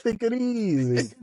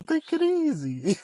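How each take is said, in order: First: Put-on slow Nacho Libre style Mexican accent, pitched up. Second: Put-on high, slow Mexican-accented take it easy, Nacho Libre style; drawn-out Mexican accent, pitched way up. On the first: Husband showing his Nacho Libre take it easy, slow, high Mexican accent. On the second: Husband teasing his angry wife in a slow, high Mexican accent. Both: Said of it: "with the accent".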